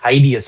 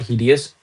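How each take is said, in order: First: The first syllable sounds like the word hide. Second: The first syllable does not sound like hide. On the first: The speaker calls it right. "hideous it is" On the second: The speaker calls it wrong. "Not hideous"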